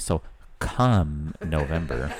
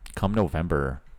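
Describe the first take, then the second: First: It is said dramatically, with heavy emphasis. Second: It is said flatly, without emphasis.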